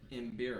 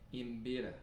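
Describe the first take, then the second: First: The r is plain, in an American accent. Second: The r is rolled with a tongue trill. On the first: The speaker calls it wrong. "that's with my Texan accent" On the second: The speaker calls it right. "if I was saying it properly, I would say Imbira, because you got to roll those R's"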